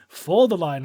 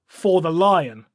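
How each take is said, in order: First: "for" hit first and firmest, "the lion" falls away after it; not "in the name of", but "FOR the lion"; stress on FOR. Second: Slow chanted rallying cry "For the lion"; drawn-out war cry with the weight on "lion"; soldiers' slow solemn chant "For the lion"; battle cry. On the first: Shown as a demonstration. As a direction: correct the phrase by punching "for". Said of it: "Not in the name of the lion". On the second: Retold or imitated. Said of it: "the Carnathians' battle cry of".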